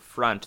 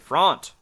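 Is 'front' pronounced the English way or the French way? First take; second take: English; French. First: The word has an English pronunciation. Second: The word has a French pronunciation. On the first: "Instead of saying front" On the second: "they say front"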